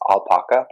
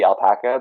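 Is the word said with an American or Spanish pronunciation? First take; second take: Spanish; American. First: The word is said with Spanish-style pronunciation. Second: The word is said with American-style pronunciation. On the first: "because they're typically Peruvian animals, it's going to be pronounced alpaca" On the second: "in the United States it's going to be alpaca"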